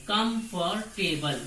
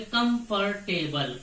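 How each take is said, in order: First: Slow comfortable in three separate beats; syllable by syllable. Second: Said in the usual way. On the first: Shown as a demonstration. Teacher showing students the three syllables, slowly syllable by syllable. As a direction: break comfortable into कम, फॉर, table. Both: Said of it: "इसमें तीन syllable है".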